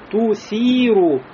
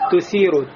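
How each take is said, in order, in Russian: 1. Первый гласный огублённый, как 'u'. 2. Первый гласный открытый, как 'a'. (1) "ту, надо губы кольцом сделать" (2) "дому неотчетливо произнесли в первом звуке... Похоже на фатху, а не на дому"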